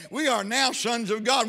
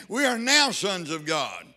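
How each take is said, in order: First: "We" hit hard, rest steady; stress on we. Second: "now" stretched and punched, falling end; stress on now. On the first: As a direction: press the word "We". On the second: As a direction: land hard on "now". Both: Shown as a demonstration.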